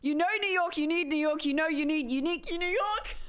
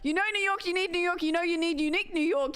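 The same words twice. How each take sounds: First: It is said at a slower speed. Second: It is said at a faster speed.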